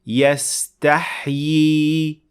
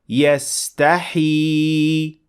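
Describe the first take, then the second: First: Two y sounds follow one another near the end. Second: One long ee vowel is heard near the end. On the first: The speaker calls it right. "with two times ya following one another" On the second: The speaker calls it wrong. "with one long ya"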